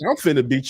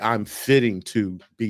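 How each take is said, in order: First: The phrase is shortened into one quick word. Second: The phrase is said in full, word by word. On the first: The speaker calls it right. "She said" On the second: The speaker calls it wrong. "your big mama didn't even say"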